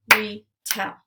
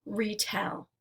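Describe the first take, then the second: First: "Retell" in two distinct beats, RE, TELL; split into syllables. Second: Said in the usual way. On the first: Shown as a demonstration. Teacher clapping out syllables for learners, "Retell" segmented as re ... tell. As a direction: pull "Retell" apart with a pause between re and tell. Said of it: "we'll clap out the syllables". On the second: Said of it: "Let's segment syllables now".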